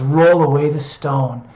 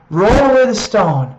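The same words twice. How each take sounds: First: Gentle repeat. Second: Loud ringing command, "away" hit hard; commanding call. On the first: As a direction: say it again as a tender promise. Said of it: "he loves to speak that". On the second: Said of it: "when Jesus speaks that". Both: Shown as a demonstration.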